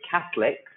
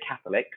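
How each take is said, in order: First: The middle O sound is dropped. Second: The middle O sound is clearly pronounced. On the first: The speaker calls it right. "it kind of becomes silent" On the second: The speaker calls it wrong.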